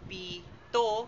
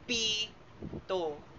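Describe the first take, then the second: First: The stress is on the second syllable. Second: The stress is on the first syllable. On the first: It means seven. "nilalapatan ng diin sa ikalawang pantig" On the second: It means whistle. "nilalapatan natin ito ng diin sa unang pantig"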